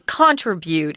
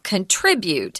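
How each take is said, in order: First: The stress is on the first syllable. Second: The stress is on the second syllable. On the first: The speaker calls it wrong. "I hear a lot of people in Taiwan say contribute" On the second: The speaker calls it right. "So the zhongyin is on trit"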